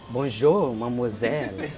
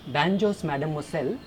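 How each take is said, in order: First: It is said with a careful French-sounding accent. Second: It is said in the speaker's own strong accent.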